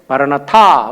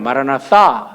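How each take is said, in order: First: The last syllable starts with a plain t. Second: The last syllable starts with a th sound. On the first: The speaker calls it wrong. "우리가 이렇게 발음하니까 그냥 우리가 일반적으로 마라나타라고 합니다" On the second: The speaker calls it right. "th 사운드예요 ... 이렇게 발음해야 되는데"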